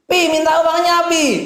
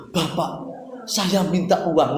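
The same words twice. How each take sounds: First: Put-on much higher, louder wheedling child voice; whiny child. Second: Put-on stiff, slow, overly formal child asking father; a touch of stiff politeness; formal request. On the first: Child pleading with Papa for money, high wheedle. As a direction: beg Papa like a spoiled kid. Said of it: "Betul nggak anak saya?". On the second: Child asking father for money, stiffly formal. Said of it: "Nggak perlu gitu".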